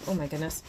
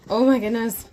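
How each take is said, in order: First: Said in the usual way. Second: "Oh my goodness" bursting out much louder and higher; a real squeal of excitement at the doll; excited burst. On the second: Real, not acted. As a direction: let it explode with delight. Overwhelmed unboxing the doll.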